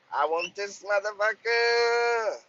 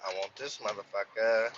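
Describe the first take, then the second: First: Higher, slow, stretched out "motherfucker"; emphatic repeat. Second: Said in the usual way. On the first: Retold or imitated. Trucker recalling the truck list, drawn-out emphatic claim. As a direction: lean into "motherfucker" like you're staking a claim.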